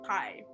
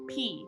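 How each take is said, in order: First: The vowel sounds like 'eye'. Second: The vowel sounds like 'ee'. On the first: The speaker calls it wrong. "not pi" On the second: The speaker calls it right. "pi is pronounced like P"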